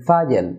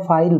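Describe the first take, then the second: First: ফাইল as "FA-yel", falling; two syllables in ফাইল; correct pronunciation. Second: ফাইল as one syllable, "fail"; plain light l in ফাইল; common pronunciation. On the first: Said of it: "না হয়ে হবে". (ফাইল-এর সঠিক উচ্চারণ, "ফায়েল") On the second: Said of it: "যেটাকে আমরা". (ফাইল-এর প্রচলিত উচ্চারণ, এক সিলেবলে) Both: Shown as a demonstration.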